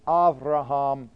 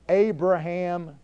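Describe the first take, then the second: First: The name is said with a V sound. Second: The name is said with a B sound. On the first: "Avraham in Hebrew. The B is pronounced as a V" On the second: "Abraham in English"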